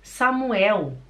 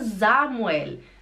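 First: The name begins with a hissing S sound. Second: The name begins with a buzzing Z sound. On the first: The speaker calls it wrong. "A pessoa fica assim, como? Pode repetir, por favor?" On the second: The speaker calls it right. "o S acompanhado por uma vogal faz som de Z"

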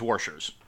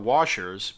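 First: It is said with an r sound, like warshers. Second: It is said without an r sound. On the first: It names the game played with them. "There is one instance in which I do" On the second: It names the small metal rings. "the little metal round things are washers"

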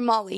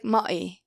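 First: The middle L sound is fully pronounced. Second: The middle L is replaced by a vowel. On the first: This is the target adult form. The speaker calls it right. "or Molly" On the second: This is a child's simplified form. The speaker calls it wrong. "He might say like Ma'i"

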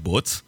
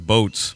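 First: It is said in an imitated French accent. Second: It is said in a plain American accent.

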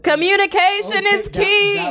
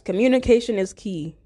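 First: It is shouted at a very loud volume. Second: It is said at a normal speaking volume.

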